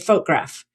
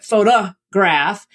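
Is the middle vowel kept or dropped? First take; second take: dropped; kept. First: The middle vowel is dropped entirely. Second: The middle vowel is kept as a weak schwa. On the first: "it's really easy to just say photograph, which is what we actually say in everyday speech" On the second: "But photograph"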